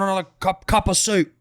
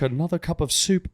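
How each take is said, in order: First: It is spoken in a Cockney accent. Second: It is spoken in a posh British accent. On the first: This is how the locals talk. "Down here, it's like Cockney" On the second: The speaker sounds too uppity. "Fancy speaks with like a proper British accent"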